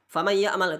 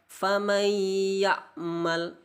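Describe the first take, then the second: First: The nasal hum is rushed and cut short. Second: The nasal hum is held for two counts. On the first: The speaker calls it wrong. "itu tidak boleh, harus ditahan dua harokat" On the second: The speaker calls it right. "harus ditahan dua harokat"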